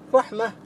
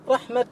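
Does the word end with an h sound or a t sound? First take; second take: h sound; t sound. First: The word ends with an h sound. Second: The word ends with a t sound. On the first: This is the common way to pause on it. "الكثير الوقف عليه بالهاء" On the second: This is the rare way to pause on it. "ويقل الوقف بالتاء"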